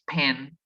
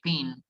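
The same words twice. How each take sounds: First: It is said with an English accent. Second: It is said with a Spanish accent. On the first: The speaker calls it right. "and it's pin" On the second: The speaker calls it wrong. "We say pin"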